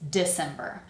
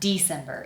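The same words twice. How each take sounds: First: The first vowel is a reduced 'ih' sound. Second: The first vowel is a full 'ee' sound. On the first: The speaker calls it right. "it's December. So that I sound is like the E, but kind of reduced" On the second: The speaker calls it wrong. "we are not saying D, it's not December"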